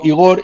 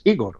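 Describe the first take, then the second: First: Igor with the stress on the last syllable, i-GOR; usual pronunciation. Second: Igor with the stress on the first syllable, EE-gor; alternative pronunciation. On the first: Host quoting the name he always used for his guest, Igor as i-GOR. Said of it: "siempre te he llamado Igor". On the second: Host checking another way to say his guest's name, Igor as Í-gor. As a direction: say Igor as Í-gor, weight on the opening I. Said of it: "a ver si ahora es". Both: Shown as a demonstration.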